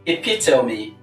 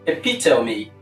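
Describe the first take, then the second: First: It has four syllables and ends in a vowel. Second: The same.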